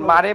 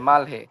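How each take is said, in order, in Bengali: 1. মাঝখানে 'r' ধ্বনি আছে, কোনো 'h' নেই। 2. 'l' এর পরে একটা স্পষ্ট 'h' ধ্বনি আছে। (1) "কোরিয়ানদের সাথে কথা বলার সময় দেখেন মারে বলে না" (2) "মাল মালহে বলে"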